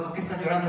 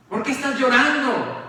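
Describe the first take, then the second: First: Hushed hurt question to Jesus; soft grieving reproach. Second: The same question pushed harder; louder accusing reproach. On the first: Marta y María preguntan a Jesús, suave y dolido. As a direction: ask it quietly, wounded. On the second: Marta y María acusan a Jesús, en voz más alta. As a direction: demand an answer, reproachful. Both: Retold or imitated. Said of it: "diría Marta y María".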